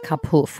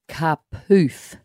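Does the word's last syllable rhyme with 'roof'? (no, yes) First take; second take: no; yes. First: The last syllable does not rhyme with roof. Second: The last syllable rhymes with roof. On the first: The speaker calls it wrong. "not Kapoof" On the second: The speaker calls it right. "it's Kapoof, it's got to rhyme with roof"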